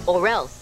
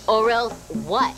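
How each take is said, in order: First: Low, final warning; threatening boss. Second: Slow, daring comeback; defiant challenge. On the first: Boss warns worker in an argument, threatening. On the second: Worker dares the boss to act, defiant. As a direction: throw the threat back slowly as a question. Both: Acted.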